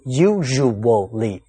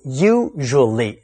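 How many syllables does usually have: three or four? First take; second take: four; three. First: The word is said with four syllables. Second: The word is said with three syllables. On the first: "四个音节" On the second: "三个音节"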